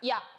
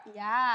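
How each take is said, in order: First: The final vowel is short and clipped. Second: The final vowel is drawn out long.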